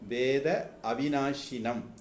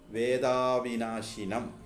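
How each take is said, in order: First: The two words are said as separate words. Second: The vowels merge and the words run together.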